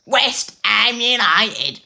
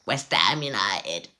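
First: Very high, loud, slow Cockney cry; bad Cockney accent. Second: Put-on Cockney accent. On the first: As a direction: belt it out in hammy Cockney. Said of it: "that actually came out terribly". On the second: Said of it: "I tried to do a Cockney accent".

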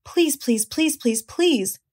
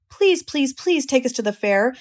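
First: Teasing goslings. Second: High pleading little gosling; begging gosling. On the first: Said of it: "all seven began teasing to go". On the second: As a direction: beg like a small child for a treat. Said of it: "begged a gosling". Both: A narrator's reading.

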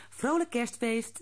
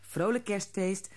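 First: Higher, cheerful mother voice; mother's greeting. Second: Put-on children in chorus. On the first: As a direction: greet them warmly as mother. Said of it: "zei ze". (moeder die vrolijk groet) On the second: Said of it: "zeiden Haasje en Rammelaar in koor". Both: A narrator's reading.

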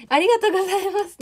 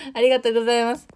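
First: 急に声を大きく上げて高く、はしゃいだ感じのありがとうございます; ぱっと跳ね上がるような高い声でお礼を言う; 甲高いお礼. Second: Said in the usual way. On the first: Real, not acted. チャット読みで急に高い声. (視聴者に向けて高く弾む声でお礼)

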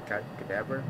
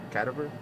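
First: "cadaver" stressed on the second syllable, kuh-DAV-er; "cadaver" with the weight on DAV. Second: "cadaver" stressed on the first syllable, CAD-uh-ver; "cadaver" with the weight up front on CAD. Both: Shown as a demonstration.

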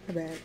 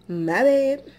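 First: Soft mumbled apology; quiet. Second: Louder, emphatic apology. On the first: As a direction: mumble it under your breath. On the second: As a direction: say it out loud, with emphasis. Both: Real, not acted. Apologizing for loud chewing.

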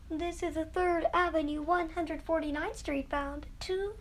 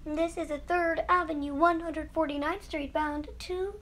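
Both takes have the same delivery.

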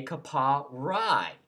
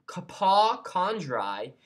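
First: KAPA RAI said slowly, only Rai as the ending; shortened name form. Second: KAPA KANDRAI said slowly and in full; full name form. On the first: Vlogger shows the shortened name, Kapa Rai said slowly. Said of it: "you say Kapa Rai". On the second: Vlogger explains the unshortened name, Kapa Kandrai drawn out slowly. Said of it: "So instead of saying". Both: Shown as a demonstration.

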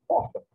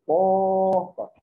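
First: Said in the usual way. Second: "porta" called louder with a long POR; stretched stressed syllable. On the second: Shown as a demonstration. Teacher asking pupils to listen for the tonic syllable, stretching POR in "porta". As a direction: hold the POR of "porta", loud and sustained. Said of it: "Quem que eu falei por mais tempo".

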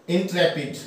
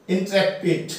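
Both takes have the same delivery.

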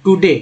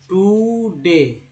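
First: Said in the usual way. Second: टुडे very slow, long oo in टु; stretched pronunciation demo. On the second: Shown as a demonstration. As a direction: hold टु, then let डे fall. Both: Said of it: "इस तरह से टुडे बोलिए".

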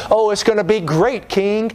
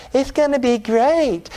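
First: Lightly voiced upbeat positive preacher, higher; a hint of a feel-good prophet; Joel Osteen. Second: High, slow, syrupy-positive preacher with a lisp; lisping prophet. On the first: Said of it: "They sound like Joel Osteen". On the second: Acted. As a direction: put on a drawn-out lisping feel-good voice. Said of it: "have a lisp and everything".

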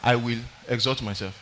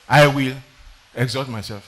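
First: Quiet rebel quote. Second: I will punched, exalt myself falling away. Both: Retold or imitated. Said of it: "somebody under the leadership of Jehovah said".

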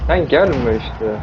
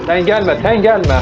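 First: Sen gelme işte stretched out very slowly; slow drawn-out plea. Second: Raised, higher urgent shout of sen gelme; yelling at zombies. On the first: Gamer begging a zombie to stay away, very slow and drawn. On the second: Gamer yelling at zombies to stay back, a raised shout. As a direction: push them back with a sharp yell of gelme. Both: Real, not acted.

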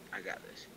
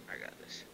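First: Said in the usual way. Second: Whispered. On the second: Shown as a demonstration.

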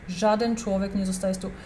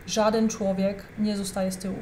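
No difference in how they are said.

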